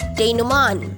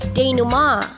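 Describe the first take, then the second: First: The word ends with an n sound. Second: The word ends with a vowel, no n. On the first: "Denouement na may N" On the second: "Denouement na walang N sa dulo"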